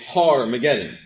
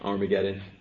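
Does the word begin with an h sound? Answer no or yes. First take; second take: yes; no. First: The word begins with an h sound. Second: The word begins with a vowel, without h. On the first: "the first time that you've ever heard the word pronounced this way" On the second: "you've heard it right"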